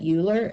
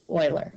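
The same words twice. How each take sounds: First: The name begins with a 'yoo' sound. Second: The name begins with an 'oy' sound. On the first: The speaker calls it wrong. "You do not say that Euler" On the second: The speaker calls it right. "that's Euler. Okay, you pronounce it that way"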